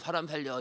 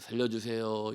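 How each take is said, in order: First: It is said in a desperate voice. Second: It is said calmly and plainly.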